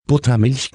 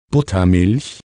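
First: Higher, incredulous raven cry; lightly voiced outraged squawk, pitched up; mild screech. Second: Said in the usual way. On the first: A narrator's reading. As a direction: exclaim it as a mildly screeching raven. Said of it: "kreischte Abraxas". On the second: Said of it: "und es regnete".

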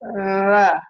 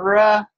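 First: "ra" made with the tongue tip pushed out between the teeth; a tongue-thrust "ra" with the tongue poking through the teeth; interdental r. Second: Said in the usual way. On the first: Shown as a demonstration. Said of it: "a child with tongue thrust". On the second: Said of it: "Instead of ra".

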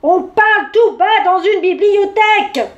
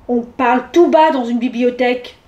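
First: Loud, much higher outburst; exploding. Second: Firmly stated rule, even pitch. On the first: Bear hushing chatty mouse, exploding in exasperation. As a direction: burst out at full indignant volume. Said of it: "explosa l'ours". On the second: Old raccoon reproving the bear, firm. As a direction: tell them off firmly, without shouting. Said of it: "lui dit fermement". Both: A narrator's reading.

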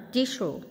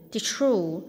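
First: "tissue" said as "TI-shoo", first syllable stressed; "tissue" without r. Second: "tissue" said as "tis-roo"; "tissue" with an r sound. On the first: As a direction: drop any r from "tissue", stress the start. (phát âm "tissue" không có âm r, nhấn âm đầu) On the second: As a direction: slip an r into the second syllable of "tissue". (phát âm "tissue" thành "tít-sru") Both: Shown as a demonstration. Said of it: "tissue thì đúng hơn".

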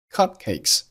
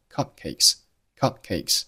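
First: Said in the usual way. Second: "cupcakes" with a silent held p; unreleased p. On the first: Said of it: "中间的字母P". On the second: Shown as a demonstration. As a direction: close the lips for p in "cupcakes" without popping. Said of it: "爆破音P失去爆破".

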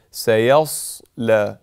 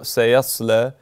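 First: سيصلى with a thin, light first syllable, slow; light seen. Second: سيصلى with a heavy, dark sad; wrong sad. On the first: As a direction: keep سيصلى light at the start. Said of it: "normal, as most letters are". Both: Shown as a demonstration.

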